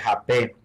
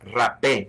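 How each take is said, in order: First: It is pronounced the way Brazilians say it. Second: It is pronounced the way Colombians say it. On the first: "the Brazilians call it Hape"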